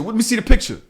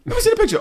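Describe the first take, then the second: First: Higher, insistent request; mildly raised, challenging demand; retold demand. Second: Very high-pitched insistence; high, exasperated repeat of a demand; escalated retold demand. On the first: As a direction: act out pressing the driver for proof. Retells first demand to driver. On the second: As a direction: squeak it out, pressing for proof. Retells repeated, escalated demand to driver.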